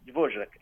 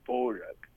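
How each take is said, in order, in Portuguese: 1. O nome é dito com pronúncia do português brasileiro. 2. O nome é dito com pronúncia nativa do tcheco. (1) "Eu já conversei com tchecos e aí eu falo assim" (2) "Aí eles falam alguma coisa"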